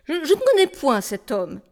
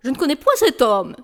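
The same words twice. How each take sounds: First: Said in the usual way. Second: Déclamé avec emphase sur point; acteur de théâtre cabotin. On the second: Acted. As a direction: comme un tragédien sur scène. (déclamation théâtrale appuyée) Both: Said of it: "Sur quel ton faut-il vous le déclamer?".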